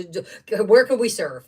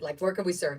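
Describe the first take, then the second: First: Where could we serve, said louder with weight on where; a firm, louder where could we serve; emphatic question. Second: Said in the usual way. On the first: Real, not acted. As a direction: push the question out with conviction. Stating her attitude twice.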